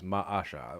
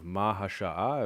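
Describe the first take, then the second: First: A glottal stop is heard before the second vowel. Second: An H sound is heard before the second vowel. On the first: "ma'a with a glottal stop and then an A and not an H" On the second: "instead of an H"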